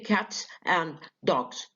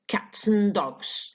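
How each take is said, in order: First: The word 'and' is pronounced in full. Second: The word 'and' is reduced to 'n'. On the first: The speaker calls it wrong. "you don't say cats and dogs" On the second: The speaker calls it right. "you say cats and dogs"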